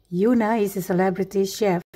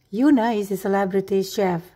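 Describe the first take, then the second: Both takes have the same delivery.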